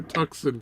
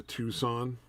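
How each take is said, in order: First: "Tucson" said TUCK-sun; mistaken pronunciation. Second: "Tucson" said TOO-sahn; correct car-name pronunciation. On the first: Admitting a long-held mistake, "Tucson" as TUCK-sun. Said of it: "I've been calling it a". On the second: Telling friends about mom's SUV, "Tucson" as TOO-sahn. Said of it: "I just realized the other day". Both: Shown as a demonstration.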